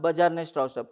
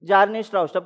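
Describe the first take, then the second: First: The first name starts with a B sound. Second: The first name starts with a J sound. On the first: This is how it comes out in Marathi-style English. "आपल्या मराठीमधलं इंग्लिशमध्ये बजारने होतं" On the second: This is how the name is really pronounced. "असं pronunciation आहे"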